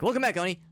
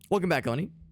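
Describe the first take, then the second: First: It is said very quickly. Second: It is said at a normal speed.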